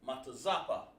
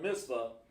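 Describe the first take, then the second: First: The word is said in four syllables. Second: The word is said in two short syllables. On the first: The speaker calls it right. "the word is really pronounced" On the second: The speaker calls it wrong. "instead of mitzvah"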